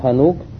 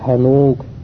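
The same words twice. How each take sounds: First: The final vowel is short. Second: The final vowel is long. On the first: This is the common simple form. "в простом виде, то есть не как Асмауль Ситта, без вау" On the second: Some tribes use it like the five nouns. "иногда у некоторых арабов используется как"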